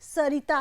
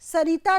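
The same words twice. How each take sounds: First: The second-syllable vowel is short. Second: The second-syllable vowel is long. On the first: The speaker calls it right. "री छोटी" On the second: The speaker calls it wrong. "यहाँ पर सरिता नहीं है"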